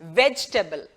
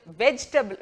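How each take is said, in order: First: വെജിറ്റബിൾ short, no long table sound; the right way, വെജിറ്റബിൾ said short; correct pronunciation. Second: വെജിറ്റബിൾ with a drawn-out "table" ending; the common wrong way, വെജിറ്റബിൾ with a long table; wrong pronunciation. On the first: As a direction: clip വെജിറ്റബിൾ to a quick vej-ta-bl. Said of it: "വെജിറ്റബിൾ എന്ന് പറഞ്ഞാൽ മതി". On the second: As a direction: say വെജിറ്റബിൾ stretching the ടേബിൾ part. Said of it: "ആ ടേബിൾ എന്നുള്ള നീട്ടലൊന്നും അവിടെ ആവശ്യമില്ല". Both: Shown as a demonstration.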